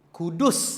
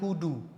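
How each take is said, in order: First: The final s sound is clearly audible. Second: The final s sound is dropped. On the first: The speaker calls it right. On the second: The speaker calls it wrong.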